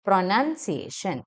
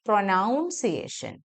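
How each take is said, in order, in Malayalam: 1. രണ്ടാമത്തെ അക്ഷരം 'nun' പോലെ കേൾക്കുന്നു. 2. രണ്ടാമത്തെ അക്ഷരം 'noun' പോലെ കേൾക്കുന്നു. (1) "നൺ സൗണ്ട് ആണ്" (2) "ഇറ്റ് ഈസ് നോട്ട് പ്രൊനൗൺസിയേഷൻ"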